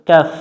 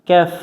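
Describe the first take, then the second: No difference in how they are said.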